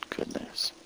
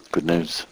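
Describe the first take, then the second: First: Breathy whispered repeat, barely audible. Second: Softly, almost under the breath; quiet. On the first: Preacher closing his sermon, whispering good news. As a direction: breathe it like a secret. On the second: Preacher closing his sermon, softly repeating good news. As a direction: let it settle gently. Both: Shown as a demonstration. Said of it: "repeated, second one whispered".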